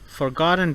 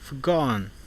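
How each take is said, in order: First: The t is fully released before the n. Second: The t is stopped, followed by a strong n.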